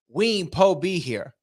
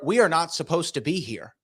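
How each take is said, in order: First: The words are reduced and run together loosely. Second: Every word is fully and carefully pronounced. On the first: It sounds cooler and more street. The speaker calls it right. "he swagged it out a little bit" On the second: It sounds proper but lacks style. The speaker calls it wrong. "That doesn't sound that fly"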